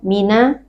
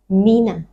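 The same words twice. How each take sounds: First: It is said lightly without extra nasal sound. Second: It is said with a hum through the nose. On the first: The speaker calls it wrong. "Bukan mina" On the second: The speaker calls it right.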